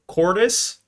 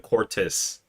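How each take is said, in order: First: The middle consonant sounds like a soft D. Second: The middle consonant is a crisp T. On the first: "Like a silent T" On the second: "or is it a Cortis?"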